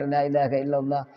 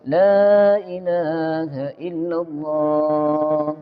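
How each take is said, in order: First: It is rushed very fast, almost breathless. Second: It is said briskly but calmly.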